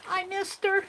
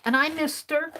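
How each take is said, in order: First: Pitched well up, a little pleading; higher, longing echo; wistful high repeat. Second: Said in the usual way. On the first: Real, not acted. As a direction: lift it high like a sad sigh. Repeats missing Aunt Beck.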